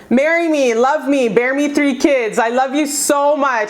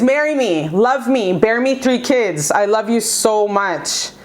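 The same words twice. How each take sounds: First: Eager proposal. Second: Tender proposal. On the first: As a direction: plead it with bright excitement. Voicing the ex's message. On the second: Tarot reader repeating the ex's plea to her viewer, slow and tender. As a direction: let the promise land gently. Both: Acted.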